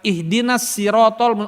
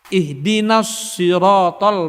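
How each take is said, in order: First: The s in siratal is thin and light. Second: The s in siratal is heavy and rounded. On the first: The speaker calls it wrong. "bukan gitu" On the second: The speaker calls it right. "Mulut harus tetap kayak ikan mas ngambil udara"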